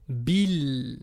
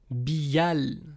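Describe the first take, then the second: First: The article vowel is dropped after bi. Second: The article vowel is pronounced after bi. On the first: The speaker calls it right. "on ne prononce pas la hamza" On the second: The speaker calls it wrong. "c'est ça qu'on devrait dire, mais on ne peut pas"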